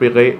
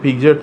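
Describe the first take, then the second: First: It is said with a hard g and no t. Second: It is said with a j sound and final t. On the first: This is the original French pronunciation. The speaker calls it right. "ശരിക്കുള്ള original pronunciation ... French pronounce" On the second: This is how the spelling reads. The speaker calls it wrong. "അതിൻ്റെ സ്പെല്ലിംഗ് വായിച്ചാൽ നമുക്ക് വായിക്കാൻ പറ്റുക"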